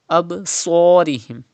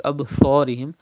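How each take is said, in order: First: "Absarihim" with a strong hissing, heavy s; whistled Sad. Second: "Absarihim" with th in place of s; Sad without whistle. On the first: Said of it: "but with whistle". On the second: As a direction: lisp the s of "Absarihim" into th. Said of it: "without whistle like Absarihim". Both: Shown as a demonstration.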